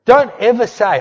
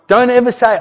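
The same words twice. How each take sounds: First: "Don't" hit high and loud, falling; stress on don't. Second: "ever" hit high and loud, falling; stress on ever. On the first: Preacher warning the congregation, "Don't" struck loud. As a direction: punch "Don't" hard. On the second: Preacher repeating the warning, "ever" struck loud. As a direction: lean on "ever" even harder. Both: Shown as a demonstration.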